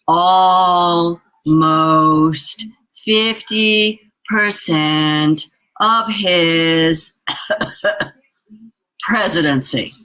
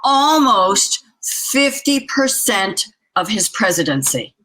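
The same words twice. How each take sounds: First: The phrase is spoken slowly and deliberately. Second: The phrase is spoken at a normal pace.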